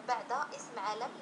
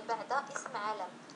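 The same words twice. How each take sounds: No difference in how they are said.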